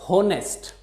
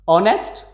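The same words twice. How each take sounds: First: The word starts with an audible h sound. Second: The word starts without an h sound. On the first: The speaker calls it wrong. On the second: The speaker calls it right.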